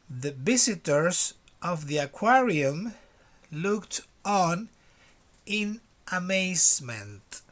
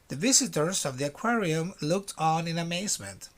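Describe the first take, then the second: First: It is read slowly. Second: It is read at normal speed.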